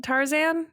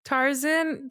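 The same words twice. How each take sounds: First: "Tarzan" with a full "zan" ending; own pronunciation. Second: "Tarzan" with a reduced "zin" ending; alternative pronunciation. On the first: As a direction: try "Tarzan" with a clear second A. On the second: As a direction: try "Tarzan" with a short, weak second vowel. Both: Shown as a demonstration. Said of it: "I'm saying it weird".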